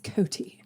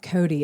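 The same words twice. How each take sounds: First: The middle consonant is a clear T sound. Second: The middle consonant is a soft D-like sound. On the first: The speaker calls it right. "With a T, you're saying it wrong" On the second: The speaker calls it wrong. "it's not Coty"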